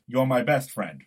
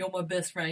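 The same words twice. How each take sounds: First: A light Gosling-style voice with a hint of Brooklyn; Ryan Gosling impression. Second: Put-on teasing echo in a light Brooklyn accent. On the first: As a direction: deliver the film line as a mild impersonation, stressing BEST. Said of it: "That was my Ryan Gosling impression". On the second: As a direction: mimic the line back with a touch of Brooklyn. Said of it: "You sound like you're from Brooklyn".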